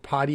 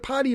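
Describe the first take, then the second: First: The middle consonant is a D sound. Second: The middle consonant is a T sound. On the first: An award for podcasts. The speaker calls it right. "like a D, not a T" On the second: An award for toilet training. The speaker calls it wrong. "No, not like that"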